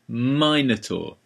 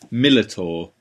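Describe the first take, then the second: First: The word is said with an 'n' sound, like Minotaur. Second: The word is said with 'l' sounds, like Millitor. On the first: The speaker calls it right. "Pronounce it properly. You're an English teacher. It's Minotaur" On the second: The speaker calls it wrong. "Ian has a very funny way of pronouncing Minotaur"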